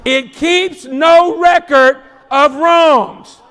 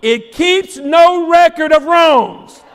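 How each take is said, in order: First: Slow, hitting no and letting each word land; slower reread, stress on no. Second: Steady, slow, stressing record; first reading. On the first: Preacher repeating the verse for emphasis, slower. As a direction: say it again slower, weight on no. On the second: Preacher reading the verse to the congregation, slow and firm. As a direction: read it slow, leaning on record. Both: Shown as a demonstration. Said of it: "Here it goes".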